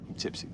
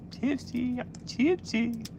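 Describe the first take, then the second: First: Said in the usual way. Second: High, soft, slow tipsy sing-song. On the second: Real, not acted. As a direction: croon it out like you're tipsy.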